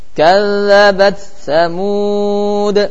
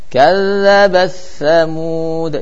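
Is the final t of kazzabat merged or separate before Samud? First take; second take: separate; merged. First: The t is pronounced clearly before the s. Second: The t merges into the following s. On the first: "Agak sulit sini" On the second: "Enaknya kalau dibaca idgham"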